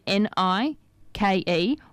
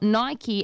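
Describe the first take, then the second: First: It is said as one syllable, rhyming with bike. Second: It is said as two syllables, ending in ee. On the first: "as in N-I-K-E" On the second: "they've added a Y on the end as in Nye and Key"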